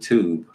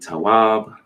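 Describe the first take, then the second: First: The middle letter is an oo vowel sound. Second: The middle letter is a W consonant sound. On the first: "pronounce the W with a U" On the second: "This can be tawab"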